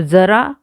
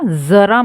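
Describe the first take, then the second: First: जरा said as jara, hard j with no friction; जरा with a clean j, meaning old age; जरा with a stopped j, no hiss; plain j sound. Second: जरा said as zara, buzzing z with air friction; जरा with a z, meaning a little; nukta z sound. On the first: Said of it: "जरा मतलब बुढ़ापा". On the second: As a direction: let air hiss through the z in जरा. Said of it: "यहाँ नुक्ता लगा है". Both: Shown as a demonstration.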